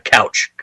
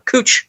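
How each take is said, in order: First: The vowel is an 'ow' sound, like couch. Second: The vowel is an 'oo' sound, like cooch. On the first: This marks the speaker as an outsider. The speaker calls it wrong. "they can always tell if you're not from Portland... if you pronounce it uh, couch" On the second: This is how local people say it. The speaker calls it right. "called uh, Cooch Street, but it's spelled couch"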